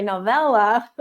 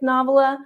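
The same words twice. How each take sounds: First: "novella" stressed on the middle, no-VELL-uh; corrected pronunciation. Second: "novella" stressed on the first syllable, NAH-vuh-luh; mispronounced novella. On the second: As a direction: say "novella" as NOV-ella, by mistake. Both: Real, not acted. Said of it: "no, I'm sorry, novella".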